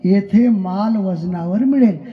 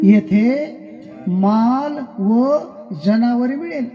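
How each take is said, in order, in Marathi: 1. Vajanavar हा एकच अखंड शब्द म्हणून उच्चारला जातो. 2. 'va' हा 'janavar' च्या आधी वेगळा केला जातो. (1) "पहिलं काय लिहिलं होतं?" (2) "त्याच्यातलं ओत तोडलं आणि अलीकडे घेतलं"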